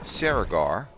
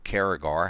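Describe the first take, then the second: First: The name begins with an S sound. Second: The name begins with a K sound. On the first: "I always say Saragar. ... that C should be pronounced like an S" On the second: "Maybe it is Karagar"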